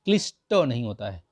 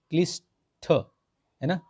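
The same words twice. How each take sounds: First: Said in the usual way. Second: क्लिष्ट drawn out, higher, questioning ना; slow mock-check of क्लिष्ट; slow stretched क्लिष्ट. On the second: Shown as a demonstration. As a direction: draw out क्लिष्ट as the wrong form. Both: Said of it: "ये क्लिष्ट नहीं होता है".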